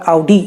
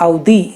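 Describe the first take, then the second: First: Audi as "ow-dee" with hard retroflex d; wrong hard d. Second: Audi as "ow-dhee", tongue on the teeth; correct soft d. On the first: Host showing the d to avoid, mispronounced. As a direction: curl the tongue for the d in Audi. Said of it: "it's not Audi". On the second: Host insisting on the right d, careful pronunciation. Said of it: "by the way, it's Audi". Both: Shown as a demonstration.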